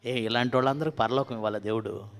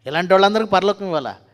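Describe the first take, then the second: First: Said in the usual way. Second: వాళ్ళందరికీ shouted higher and loud, falling at the end; preacher shouting the question louder the second time; loud rhetorical question. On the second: Real, not acted. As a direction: fire the question at the congregation.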